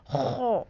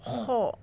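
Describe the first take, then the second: Both takes have the same delivery.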